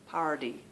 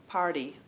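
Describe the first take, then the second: The two takes are said the same way.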